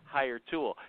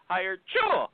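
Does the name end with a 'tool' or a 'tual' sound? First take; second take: tool; tual. First: The ending sounds like the word 'tool'. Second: The ending sounds like 'tual', like a sneeze. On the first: "But I say Hire Tool" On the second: "It's like a sneeze"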